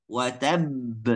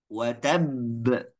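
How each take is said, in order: No difference in how they are said.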